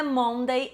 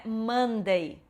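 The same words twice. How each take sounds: First: Monday with a round O, MON-day; wrong pronunciation. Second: Monday as MUN-day; Monday with a short uh vowel; correct pronunciation. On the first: Teacher showing the error, Monday with a round O. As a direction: say Monday as spelt. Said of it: "não é Monday". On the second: Teacher modelling Monday, MUN-day. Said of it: "é Monday". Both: Shown as a demonstration.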